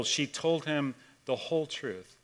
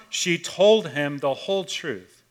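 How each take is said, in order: First: Softer, with weight on "whole"; stress on whole. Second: Said in the usual way. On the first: Shown as a demonstration. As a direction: lean gently into the word "whole". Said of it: "That little word, "whole". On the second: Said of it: "this remarkable phrase".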